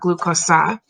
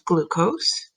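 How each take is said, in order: First: The word ends with an added 'ah' sound. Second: The word ends on the 's' sound, without 'ah'. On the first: The speaker calls it wrong. "we don't say a at the end, not glucosa" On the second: The speaker calls it right. "but glucose"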